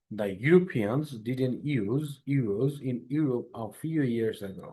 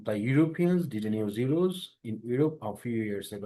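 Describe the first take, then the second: First: Very slow, word-by-word model reading; carefully paced drill sentence. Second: Very slow drill reading; model sentence read aloud. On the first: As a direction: read it out slowly so students can follow. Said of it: "Like, louder, please।". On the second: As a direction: spell the sentence out slowly for the class. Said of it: "জোরে জোরে বলবেন যখন বলবেন". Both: Shown as a demonstration.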